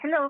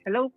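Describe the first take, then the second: First: It is said in a higher, feminine voice. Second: It is said in a lower, masculine voice. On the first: "Babaeng babae" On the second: "eto po yung normal voice ko"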